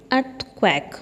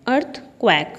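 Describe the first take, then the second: No difference in how they are said.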